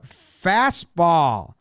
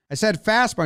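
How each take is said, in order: First: "Fastball" drawn out as two separate beats; imitated clarification. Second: "fastball" said quickly and pitched up; imitated insistence. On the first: Pitcher clarifies for confused catcher, "Fastball" slow and deliberate. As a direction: stretch out "Fastball" to make it clear. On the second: Pitcher repeats his call to the catcher, "fastball" insistent and higher. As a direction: restate "fastball" higher, in one quick run.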